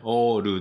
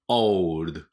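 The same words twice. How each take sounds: First: It is said with Japanese katakana-style vowels. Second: It is said with English sounds, ending in ld. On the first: The speaker calls it wrong. "old じゃないですよ。" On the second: The speaker calls it right. "ちょっと大げさにやってますけど。"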